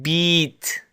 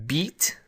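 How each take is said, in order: First: The vowel is held for an extra long time. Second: The vowel is held for a normal, shorter time.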